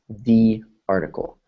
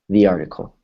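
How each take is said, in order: First: The phrase is spoken slowly and carefully. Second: The phrase is spoken quickly at natural pace. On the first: "if we slow it down" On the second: "If we speed it up to a native speaker's pace"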